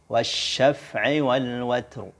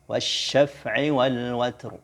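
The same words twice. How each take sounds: The two takes are said the same way.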